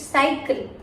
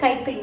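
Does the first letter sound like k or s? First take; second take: s; k. First: The word begins with an s sound. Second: The word begins with a k sound. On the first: The speaker calls it right. "K sound has changed to is sound" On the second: The speaker calls it wrong. "It's not cycle"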